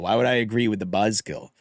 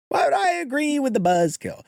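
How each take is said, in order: First: Shouting. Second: Repeated up high and mocking; high-pitched retort. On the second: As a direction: throw it back higher and snappier. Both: Real, not acted.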